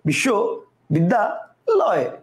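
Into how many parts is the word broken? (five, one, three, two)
three. The word is broken into three separate parts. "কয়টা হলো তিনটা"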